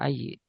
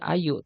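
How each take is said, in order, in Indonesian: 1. Kata itu berakhir dengan vokal i. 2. Kata itu berakhir dengan vokal u. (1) "tidak ayi" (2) "Makanya bacanya ayu"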